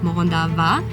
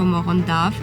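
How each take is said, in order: First: The final vowel is clearly pronounced. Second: The final vowel is left off. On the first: "some people do and some people don't" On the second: "you don't pronounce the A in the end"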